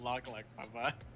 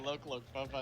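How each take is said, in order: First: The first words have the vowel of 'lock'. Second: The first words have the vowel of 'look'. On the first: The speaker calls it wrong. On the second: The speaker calls it right. "I say"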